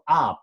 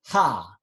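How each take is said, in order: First: The vowel starts without any h sound. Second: The vowel starts with a breathy h sound. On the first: The speaker calls it wrong. "instead of ah" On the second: The speaker calls it right. "but you should sound ha"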